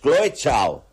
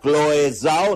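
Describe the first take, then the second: First: The surname begins with a ch sound. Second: The surname begins with a z sound. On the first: The speaker calls it right. "No, es Chloe Zhao" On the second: The speaker calls it wrong. "Como la que ganó el Oscar"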